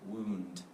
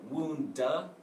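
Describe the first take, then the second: First: The final d has no vowel after it. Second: The final d is followed by a vowel. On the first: The speaker calls it right. "just a little bit of a d" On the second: The speaker calls it wrong. "Don't say wound, duh"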